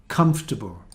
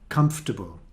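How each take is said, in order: First: The unstressed vowel is reduced to a schwa. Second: The same.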